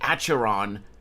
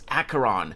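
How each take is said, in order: First: The 'ch' is a soft, non-k sound. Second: The 'ch' is a hard k sound. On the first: The speaker calls it wrong. "You don't say Acheron" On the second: The speaker calls it right. "you pronounce Acheron"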